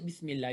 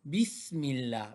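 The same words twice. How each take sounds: First: The s sound is soft and light. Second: The s sound is pushed out with force. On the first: The speaker calls it wrong. "you don't say Bismillah" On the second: The speaker calls it right. "You need to apply a little bit force and say Bismillah"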